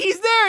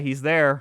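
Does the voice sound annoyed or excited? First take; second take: excited; annoyed. First: It sounds eager and excited. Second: It sounds flat and annoyed. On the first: A child is thrilled to see the character. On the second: A tired parent is going along reluctantly.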